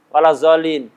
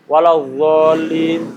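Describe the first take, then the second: First: The last word begins with a 'z' sound. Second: The last word begins with an emphatic 'dh' sound.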